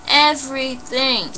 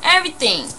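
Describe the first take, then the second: First: EVERYTHING stretched slowly, syllable by syllable; slow, raised EV-ERY-THING, letting each part land; drawn-out emphasis. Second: EVERYTHING said once, high, in one falling sweep; emphatic. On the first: Telling viewers all was taken, drawn-out EVERYTHING. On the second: Telling viewers what was taken, emphatic EVERYTHING. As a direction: stress EVERYTHING with a raised pitch. Stressing total loss in robbery story. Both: Real, not acted.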